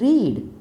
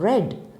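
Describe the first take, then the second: First: The vowel is a long 'ee' sound. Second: The vowel is a short 'e' sound. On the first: The action happens now or habitually. "which is the present tense" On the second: The action happened in the past. "which is the past tense of read"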